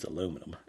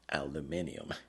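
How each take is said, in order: First: The word is said with four syllables. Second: The word is said with five syllables. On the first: This is the local Texas form. "in Texas, it's aluminum" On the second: This is the form not used locally. "We will not say aluminium"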